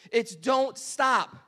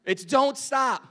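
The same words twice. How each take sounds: First: Slow, stretched "don't stop"; drawn out. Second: Said in the usual way. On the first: Shown as a demonstration. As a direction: drag out "It's don't stop" like a song hook. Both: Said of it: "Don't say it, Tim".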